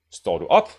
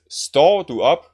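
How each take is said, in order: First: "op" stressed with a rise, "Står" unstressed. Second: "Står" stressed, drawn out, louder. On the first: Teacher contrasting the wrong version, op stressed. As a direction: hit "op", glide past "Står". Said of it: "with the stress on the up only and not on the står". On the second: Teacher repeating the first version, står stressed, slow. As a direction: dwell on "Står" and rise on "op" lightly. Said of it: "what we first said". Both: Shown as a demonstration.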